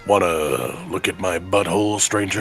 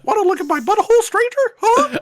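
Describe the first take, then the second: First: It imitates the Resident Evil 4 vendor's seductive voice. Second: It is in a high Mickey Mouse voice.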